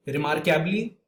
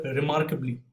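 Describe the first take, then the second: First: "remarkably" said as re-mark-YAB-lee with a full A; mispronounced remarkably. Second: "remarkably" with a reduced vowel, re-MARK-uh-blee; correct remarkably. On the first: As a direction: stretch "remarkably" into remark-ably. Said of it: "I said remarkably instead of". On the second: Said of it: "instead of remarkably". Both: Shown as a demonstration.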